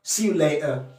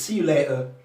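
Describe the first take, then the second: First: The t is replaced by a glottal stop. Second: The t is replaced by a glottal stop.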